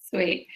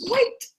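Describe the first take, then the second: First: Said in the usual way. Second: Sweet sung up high with a rising lift; a chirpy, high rising Sweet. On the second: Real, not acted. Two contrasting takes of sweet.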